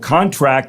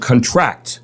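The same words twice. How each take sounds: First: The stress is on the first syllable. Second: The stress is on the second syllable. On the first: An agreement someone signs. The speaker calls it wrong. "the other time was we'd have a contract with" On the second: Something gets smaller. The speaker calls it right. "It gets smaller"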